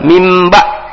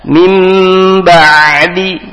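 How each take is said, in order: First: The ain sound stops abruptly and is clipped. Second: The ain sound has medium length and force. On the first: The speaker calls it wrong. "jadi syiddah dia langsung berhenti" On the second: The speaker calls it right. "tapi tawasud tengah-tengah"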